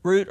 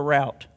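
First: "Route" rhyming with boot; "Route" with a long oo; ROOT pronunciation. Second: "route" rhyming with out; "route" with an ow diphthong; ROWT pronunciation. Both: Shown as a demonstration. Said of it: "How do you say it?".

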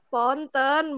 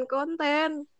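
First: Ponten with a P, like the slang word. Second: Konten with a K, slow and clear. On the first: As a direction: say ponten, not konten. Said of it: "bukan ponten". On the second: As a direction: say konten, the normal word. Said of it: "bukan konten". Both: Shown as a demonstration.

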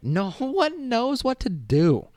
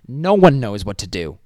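First: Slow, high-pitched comic wail; high drawn-out wail. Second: Loud, punchy comeback; emphatic retort. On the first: Repeating the retort to the student, high wail. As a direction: stretch every word up high. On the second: Answering the cocky student, loud emphatic retort. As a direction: hit it hard at normal pitch. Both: Acted.

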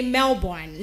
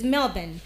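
First: Melbourne said MEL-born; Melbourne with a full born ending; common mispronunciation. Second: Melbourne said MEL-bun; Melbourne ending in a weak bun; correct pronunciation. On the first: Host imitating the error, MEL-born. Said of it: "A lot of people will say". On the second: Host correcting to MEL-bun. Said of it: "No, it is not Melbourne". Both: Shown as a demonstration.

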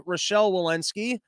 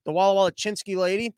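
First: Said in the usual way. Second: "Walla Walla Chinsky" for Walensky, sing-song and mangled; jokey name-mangling of "Walla Walla Chinsky"; mocking mispronunciation. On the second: Shown as a demonstration.

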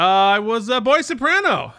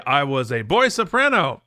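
First: Comically raised pitch; mock boy soprano. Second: Said in the usual way. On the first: Choir guy repeating his boy-soprano joke, pitched high. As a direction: push the voice up like a choirboy.

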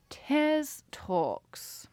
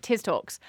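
First: Tiz Talks sung out higher with a long falling Tiz; odd show-name read. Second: Said in the usual way. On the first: Shown as a demonstration. Host announcing her podcast name, then laughing it off, higher drawn-out announcer tone. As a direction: stretch "Tiz" up high and let it fall slowly. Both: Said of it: "I don't know why I said it like that".

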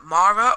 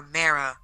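First: Mara said as MAR-uh, open ah. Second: Mara said as MARE-uh; Mara with AIR. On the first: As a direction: say Mara with "mar" up front, stressed. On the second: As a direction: say Mara with "air" in the first syllable. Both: Shown as a demonstration. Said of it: "There's so many different ways".

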